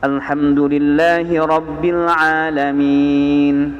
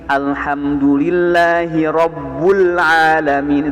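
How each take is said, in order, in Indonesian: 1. Kata setelah lillahi dibaca Rabbil. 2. Kata setelah lillahi dibaca Rabbul. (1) "itu Quran, maka itu tidak boleh diganti" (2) "itu nggak bisa"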